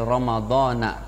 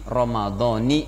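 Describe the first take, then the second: First: The word ends with an 'a' vowel. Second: The word ends with an 'i' vowel. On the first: The speaker calls it wrong. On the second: The speaker calls it right. "tapi pakai kasroh"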